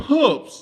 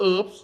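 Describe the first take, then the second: First: "herbs" with a clear H, louder and higher; H pronounced. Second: "herbs" said without the H, as "erbs"; silent H. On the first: Host quoting the BBC podcast, "herbs" with a sounded H. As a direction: punch the H at the start of "herbs". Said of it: "เขาเขียนอย่างมันมี H". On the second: Host showing how he was taught, "herbs" with silent H. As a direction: drop the H in "herbs". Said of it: "ห้ามออกเสียง H". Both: Shown as a demonstration.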